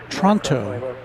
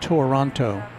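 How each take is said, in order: First: The word is said with two syllables. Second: The word is said with three syllables. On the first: The speaker calls it right. "correctly pronounced as two syllables" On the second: The speaker calls it wrong.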